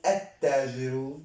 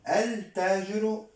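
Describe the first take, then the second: First: التاجر with silent L and doubled T: at-taajiru; lam assimilated. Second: التاجر with the L sounded: al-taajiru; lam pronounced. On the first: Teacher offering students the sun-letter reading of التاجر, L assimilated. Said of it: "إذن التا حرف شمسي". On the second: Teacher offering students a choice on التاجر, L pronounced. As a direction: sound the L clearly before T in التاجر. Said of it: "أو التاجر؟". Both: Shown as a demonstration.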